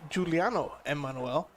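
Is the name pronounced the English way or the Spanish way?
English. The name is pronounced the English way. "maybe you could say"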